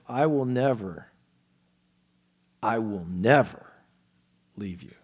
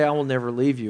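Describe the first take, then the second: First: The word never gets strong, heavy emphasis. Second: The words flow evenly without special emphasis. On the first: The promise is absolute and forceful. The speaker calls it right. "it's as if the author says" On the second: The promise sounds casual and ordinary. The speaker calls it wrong. "it just kind of rolls off the tongue"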